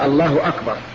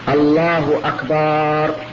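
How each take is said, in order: First: No vowel is lengthened in the phrase. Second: The vowel after b in the last word is drawn out. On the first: It states that God is greatest. The speaker calls it right. "ولا بد من أن يقول الله أكبر" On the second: It turns the word into a plural meaning drums. The speaker calls it wrong. "مددت الباء"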